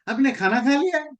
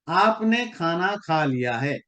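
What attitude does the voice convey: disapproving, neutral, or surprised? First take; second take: disapproving; neutral. First: It is said in a shocked, disapproving tone. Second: It is said in a plain, neutral tone. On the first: The listener should not have eaten. "मतलब है आपको खाना नहीं खाना चाहिए था, आपने कैसे खा लिया?" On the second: The listener has simply eaten. "इसका सिंपल मतलब यही है कि आपने खाना खा लिया।"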